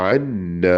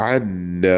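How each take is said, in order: Both takes have the same delivery.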